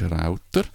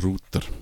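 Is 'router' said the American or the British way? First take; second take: American; British. First: The word has an American pronunciation. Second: The word has a British pronunciation. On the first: "Amerikanisch ist Router" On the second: "Englisch ist Router"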